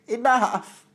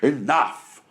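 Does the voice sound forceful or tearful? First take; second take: tearful; forceful. First: It is a tearful, whiny cry like Bran's. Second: It is a forceful, manly shout like Brandon's.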